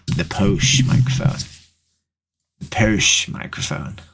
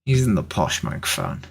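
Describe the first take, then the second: First: Mock posh. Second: Said in the usual way. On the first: Plays up the word posh, repeated.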